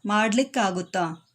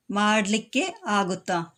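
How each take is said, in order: First: Said in the usual way. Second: മാഡ്ലിക്ക് ആകുത്താ said slowly as two words with a gap; slow split form. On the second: Shown as a demonstration. Teacher showing students the split form മാഡ്ലിക്ക് ആകുത്താ, slow. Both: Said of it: "ഇനിയും ഷോർട്ടായി പറയുകയാണെങ്കിൽ".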